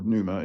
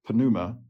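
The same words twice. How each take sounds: First: The P at the start is silent. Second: The P at the start is pronounced.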